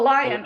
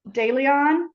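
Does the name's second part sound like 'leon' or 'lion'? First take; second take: lion; leon. First: The second part sounds like 'lion'. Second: The second part sounds like 'leon'. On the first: The speaker calls it right. "today in my pronunciation, I'm like a big B minus" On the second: The speaker calls it wrong. "Am I saying it right?"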